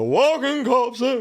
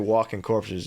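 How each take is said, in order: First: It is said in a dramatic put-on character voice. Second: It is said plainly in a normal voice. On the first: The speaker calls it right. "You got to go walking corpses" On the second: The speaker calls it wrong. "You can't just say walking corpses"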